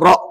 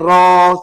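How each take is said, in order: First: It ends with a glottal stop after the vowel. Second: It ends in a vowel held two counts. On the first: "eja ra alif hamzah disebut ra" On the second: "Contohnya ra dua harakat"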